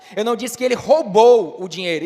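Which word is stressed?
roubou. The stress falls on the word roubou. He did something else with the money. "então o que foi que ele fez com o dinheiro?"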